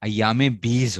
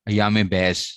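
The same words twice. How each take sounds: First: बीज said with a long ee vowel; correct reading. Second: बैज said with an ai vowel, the common mistake; wrong reading. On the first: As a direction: say अयाम बीज with a clear long ee, correcting the mistake. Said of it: "अयाम बैज नहीं होता भाई". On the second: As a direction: say अयाम बैज as people wrongly read it. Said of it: "लोग इसको बैज पढ़ते हैं". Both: Shown as a demonstration.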